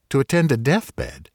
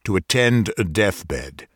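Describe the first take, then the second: First: Higher, amazed repeat of "attend"; can't believe what he heard; incredulous echo. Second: Steady, unbending answer, stress on attend; firm. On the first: Doctor echoes the stranger's errand, incredulous. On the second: Stranger firmly tells the doctor his errand. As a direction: state it flatly, no room for doubt. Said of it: "the blue-black lips answered firmly". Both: A narrator's reading.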